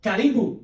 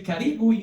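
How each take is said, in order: First: "Karibu" said ka-REE-boo, rising at the end; Swahili greeting. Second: "Karibu" said ka-REE-boo, falling at the end; "Karibu" as a call for the audience to answer; Swahili greeting. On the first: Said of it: "we say". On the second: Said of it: "And then when I say". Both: Shown as a demonstration.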